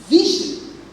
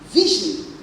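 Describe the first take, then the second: No difference in how they are said.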